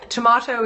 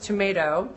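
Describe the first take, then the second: First: It is said with a British vowel, tom-ah-to. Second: It is said with an American vowel, tom-ay-to. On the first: This is how the British-Australian guest says it. "she's British" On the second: This is how the host says it. "Let me translate for you"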